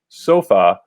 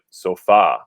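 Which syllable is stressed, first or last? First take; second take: first; last. First: The stress is on the first syllable. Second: The stress is on the last syllable. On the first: This is how it would read without an accent mark. "if we don't have an accent mark, this word should be pronounced sofa" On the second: This is how the word is actually said. "we know that we pronounce it sofa"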